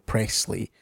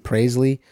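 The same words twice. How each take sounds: First: The middle s sound is strongly hissed. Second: The middle s sound is soft. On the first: "they always emphasise the S there" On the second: "for me, it's always been Presley"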